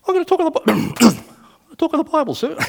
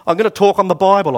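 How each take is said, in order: First: High squeaky nervous voice, with a cough; comically strangled, high-pitched nerves, breaking off to cough. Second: Loud, raised-pitch retold declaration; imitating a nervous soldier speaking up, high and loud; nervous announcement, blurted. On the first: Retold or imitated. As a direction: imitate a terrified soldier squeaking out his answer. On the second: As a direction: blurt it out loudly to the commander. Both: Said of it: "I said it very nervously".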